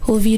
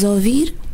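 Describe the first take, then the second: First: It is said in a standard Portuguese accent. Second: It is said in an Alentejo accent.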